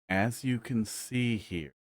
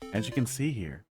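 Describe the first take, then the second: First: It is said weirdly slowly. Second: It is said at a normal speed.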